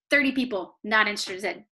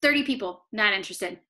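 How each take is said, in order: Both takes have the same delivery.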